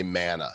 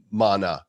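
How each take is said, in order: First: Mana said MAN-uh, vowel as in cat; own pronunciation. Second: Mana said MAH-nuh, broad first vowel; imitated pronunciation. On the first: Shown as a demonstration. Giving his own way to the guest, mana pronounced MAN-uh. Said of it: "everybody pronounces the terms different". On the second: Quoting the guest's term, mana pronounced MAH-nuh. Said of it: "I always say mana".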